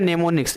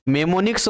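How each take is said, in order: First: The word begins with an n sound. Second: The word begins with an m sound. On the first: The speaker calls it right. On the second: The speaker calls it wrong.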